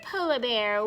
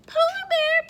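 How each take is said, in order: First: Said in the usual way. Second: High, loud call to the bear; excited story refrain. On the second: Pretend. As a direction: sing out the animal's name high. Reading refrain to children.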